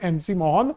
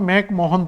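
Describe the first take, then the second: First: The first part is spelled out as letters 'M C'. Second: The first part is said as one syllable 'Mac'. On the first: This is claimed to be the real name. "Real में इसका नाम है एमसी Mohan" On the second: This is how it is commonly read in Hindi. "Hindi में हम मैक Mohan पढ़ लेते हैं"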